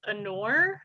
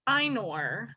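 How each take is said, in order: First: The opening vowel is a plain A sound. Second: The opening vowel glides like 'eye'. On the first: This is how the speaker says it. "a little more emphasis on the A than the I" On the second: Other people say it this way. "I've heard it pronounced as Ainur"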